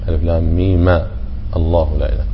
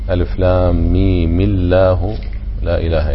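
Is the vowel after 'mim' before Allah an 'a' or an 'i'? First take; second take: a; i. First: The m is followed by an a vowel. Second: The m is followed by an i vowel. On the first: "التخلص والتقاء الساكنين بالفتح" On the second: "لو تخلصنا بالكسر لكانت القراءة كيف؟"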